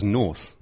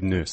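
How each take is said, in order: First: The name sounds like the word north. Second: The name sounds like the word nurse. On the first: The speaker calls it wrong. "I always thought it was North because that's how I would say it" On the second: The speaker calls it right. "But no, let's go with Nurse"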